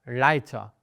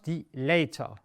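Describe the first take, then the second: First: Leiter with "ei" like "eye", "lighter"; right pronunciation. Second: Die Leiter with "ei" said as "ay", like "layter"; wrong pronunciation. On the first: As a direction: Leiter said "ligh-ter". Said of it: "it's die". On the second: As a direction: Leiter mispronounced "lay-ter". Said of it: "It's not die Leiter". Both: Shown as a demonstration.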